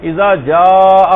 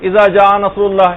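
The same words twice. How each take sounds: First: اذا جاء with the vowel of جاء drawn long and slow; with the madd. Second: اذا جاء read short, no madd on جاء; without the madd. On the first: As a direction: stretch the madd on جاء well out. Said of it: "یہاں پر ایک مد ہونا چاہیے". (جاء میں مد کو کھینچ کر لمبا پڑھنا) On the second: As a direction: clip the vowel in جاء short, the common mistake. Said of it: "جیسے لوگ کہ-، سورہ نصر پڑھ رہے ہیں". (جاء کو بغیر مد کے مختصر پڑھنا) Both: Shown as a demonstration.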